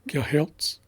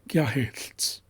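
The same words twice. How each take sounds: First: It uses a plain L sound. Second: It uses a hissing, breathy lateral sound. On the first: The speaker calls it wrong. "I'll do the approximate pronunciation first" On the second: The speaker calls it right. "and then accurate"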